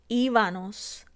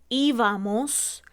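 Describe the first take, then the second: First: The ending uses an n sound. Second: The ending uses an m sound. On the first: The speaker calls it wrong. "cambiamos la M por la N" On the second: The speaker calls it right. "la correcta"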